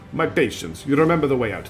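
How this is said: It is read in an exaggerated Russian accent.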